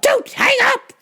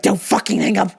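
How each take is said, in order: First: High-pitched, desperate mock yell; frantic plea. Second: Said in the usual way. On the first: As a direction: cry out before the line goes dead. Plea to mom escalates.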